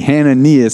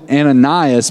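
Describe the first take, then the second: First: The name is said in its Hebrew form. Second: The name is said in its familiar English form. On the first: This is how the name is said in the original language. The speaker calls it right. "in his name in the Hebrew, ... It's Hananias" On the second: This is how the speaker has always said the name. The speaker calls it wrong. "I've always called him Ananias"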